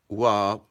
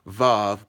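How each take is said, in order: First: The name begins with a w sound. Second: The name begins with a v sound. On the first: The speaker calls it right. "the correct pronunciation would be wab" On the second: The speaker calls it wrong. "it says vav"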